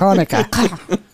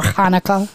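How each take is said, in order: First: Slow, drawn Hanukkah; drawn-out word. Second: Slow, stretched Hanukkah; dragged out. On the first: Shown as a demonstration. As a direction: stretch Hanukkah out slowly. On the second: Retold or imitated. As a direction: draw out Hanukkah long and slow. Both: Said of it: "Why do you drag it out?".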